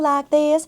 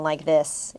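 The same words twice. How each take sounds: First: It is spoken in a Southern American accent. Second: It is spoken in a Mid-Atlantic accent. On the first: This is how one actress sounded. "she was talking like a Southern belle, like this" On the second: This is how the rest of the cast sounded. "it was like very like mid-Atlantic"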